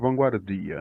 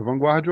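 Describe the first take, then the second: First: It is said with a non-caipira pronunciation. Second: It is said with a rural caipira pronunciation. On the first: This is how residents say the name. "quem mora lá chama de vanguardia... É a pronúncia dos que não são caipira" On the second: This is how outsiders say the name. "é o jeito que é falado para quem não mora lá"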